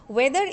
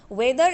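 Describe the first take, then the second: No difference in how they are said.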